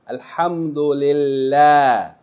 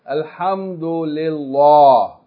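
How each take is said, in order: First: The L sound is light and thin. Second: The L sound is heavy and full-mouthed. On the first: The speaker calls it right. "it can be pronounced light with tarqiq" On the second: The speaker calls it wrong. "we don't say alhamdulillah. That's tafkheem"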